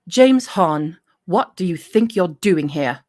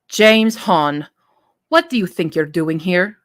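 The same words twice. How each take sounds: First: It is said in a British accent. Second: It is said in a Middle Eastern accent.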